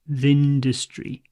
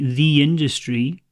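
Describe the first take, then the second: First: 'The' is weak and runs into 'industry'. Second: 'The' is said fully and strongly, separate. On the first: The speaker calls it right. "Think of it as T H I N D" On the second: The speaker calls it wrong. "you probably shouldn't say it as strongly as that"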